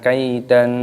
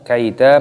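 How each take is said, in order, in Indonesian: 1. Kata ini berakhir dengan bunyi n. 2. Kata ini berakhir dengan vokal a panjang. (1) "jadi bukan kaidan" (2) "di sini dibaca kaida mat iwad"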